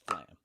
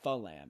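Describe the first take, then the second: First: F and L are joined tightly together. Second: A vowel is inserted between F and L. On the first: The speaker calls it right. "It's flam" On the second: The speaker calls it wrong. "You don't say falam"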